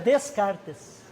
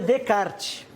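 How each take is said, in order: First: The name is sounded out following its spelling. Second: The name is said in its usual spoken form. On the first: This is how the name is written. "Na verdade é" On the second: This is how the name is actually read. "mas se lê"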